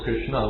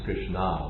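First: The final vowel is short. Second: The final vowel is long. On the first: It names the male deity. The speaker calls it right. "with an A at the end, it's a short A" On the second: It names a woman. The speaker calls it wrong. "Krishna with a long A"

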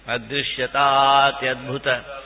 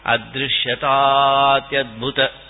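First: The words are joined into one flowing sandhi form. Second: The words are joined into one flowing sandhi form.

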